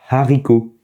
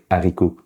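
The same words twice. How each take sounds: First: It starts with a breathy h sound. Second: It starts directly on the vowel. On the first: The speaker calls it right. "une sorte de H soufflé. On dit par exemple haricot" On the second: The speaker calls it wrong. "On n'est pas censé juste dire haricot"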